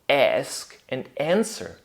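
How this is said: The vowel is a short flat 'a' sound. "changing it to A in American English"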